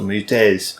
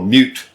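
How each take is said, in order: First: It is said with Japanese-style vowels and rhythm. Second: It is said as a plain English word. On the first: The speaker calls it wrong. "I keep on pronouncing it in the Japanese way" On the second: The speaker calls it right. "it's supposed to be Mute"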